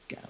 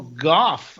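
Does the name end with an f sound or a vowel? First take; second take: vowel; f sound. First: The name ends with a vowel sound. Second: The name ends with an f sound. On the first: This is how the speaker always thought it was said. "I thought it was always Gow" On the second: This is believed to be the actual name. "I guess his name is"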